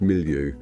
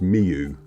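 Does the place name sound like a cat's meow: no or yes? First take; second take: no; yes. First: The name does not sound like a meow. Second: The name sounds like a cat's meow. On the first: This is how local people say it. The speaker calls it right. "according to a lady on reception there, it's pronounced Milieu" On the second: This is how an online translator says it. The speaker calls it wrong. "it should be pronounced Miu, like a cat"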